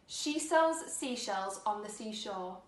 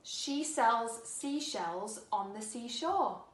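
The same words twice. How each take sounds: First: It is said a little more quickly. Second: It is said at a moderate pace. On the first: "a little bit quicker this time" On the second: "Now let's put it all together"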